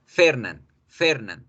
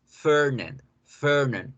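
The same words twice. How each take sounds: First: Fernand with short e and tapped Spanish r; Spanish pronunciation. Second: Fernand with long English er; English pronunciation. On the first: Teacher contrasts the languages, Spanish Fernand. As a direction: say Fernand just as written in Spanish. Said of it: "En español". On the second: Teacher contrasts the languages, English Fernand. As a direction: draw out Fernand, er without a tapped r. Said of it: "En inglés". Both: Shown as a demonstration.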